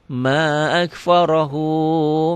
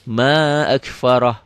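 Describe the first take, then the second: First: The phrase ends with a linked 'hu' sound. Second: The phrase ends clipped, with no final vowel. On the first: The reader runs on into the next words. "Kalau disambung" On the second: The reader stops at this word. "Kalau dihentikan"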